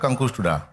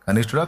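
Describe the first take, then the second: First: The middle syllable is said as nkush. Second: The middle syllable is said as nish. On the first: The speaker calls it wrong. "సరిగా పలకండి ఆ పదం" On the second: The speaker calls it right. "కనిష్ఠుడేగా"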